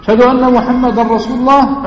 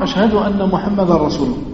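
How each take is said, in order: First: Said in the usual way. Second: Softer, quicker murmured repeat; hushed answer; quiet reply. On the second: Shown as a demonstration. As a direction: answer under your breath. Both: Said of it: "muezzin line then reply".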